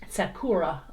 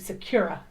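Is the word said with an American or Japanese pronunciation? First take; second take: Japanese; American. First: It is said with a Japanese-style pronunciation. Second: It is said with an American-style pronunciation. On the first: "I need to pronounce it correctly for you guys" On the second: "I Americanize it to Sakura because of the U"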